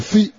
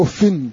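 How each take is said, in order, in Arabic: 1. تنتهي الكلمة بكسرة قصيرة -i. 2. تنتهي الكلمة بـ -in مع التنوين. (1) "بغير تنوين بالكسر" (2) "بالكسر والتنوين"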